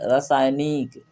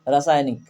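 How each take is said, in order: First: The vowel is said long and drawn out. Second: The vowel is said short and quick.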